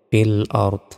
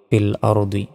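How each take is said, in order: First: The phrase ends on a consonant. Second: The phrase ends with a final vowel. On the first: The reader stops at this word. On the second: The reading continues without stopping.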